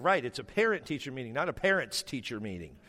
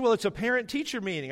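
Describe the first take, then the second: First: Usual pitch, contrasting "parent-teacher" with "parents-teacher"; deadpan correction. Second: Higher-pitched imitation of the wife explaining; wife's insistence. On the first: Retold or imitated. Husband corrects wife on "parent-teacher", dry reply in his own pitch. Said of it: "I said". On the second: Wife reminds husband what the meeting is, higher insistent voice. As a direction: voice the wife higher, pointing out the obvious. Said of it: "She said".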